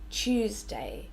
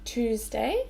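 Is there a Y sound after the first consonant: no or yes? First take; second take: yes; no. First: A Y glide is heard after the T. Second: No Y glide is heard after the T. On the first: "but Tuesday" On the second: "not Tuesday"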